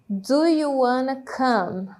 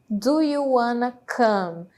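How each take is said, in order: No difference in how they are said.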